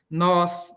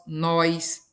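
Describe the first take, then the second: First: "Nós" com ó puro; sem i inserido. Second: "nós" dito nóis; i inserido. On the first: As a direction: diga "Nós" sem ditongo. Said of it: "é colocar um I". ("Nós" com vogal aberta única antes do s) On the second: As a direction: acrescente um i em "nós": nó-is. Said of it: "Ou aumenta um som". ("nós" com ditongo ói) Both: Shown as a demonstration.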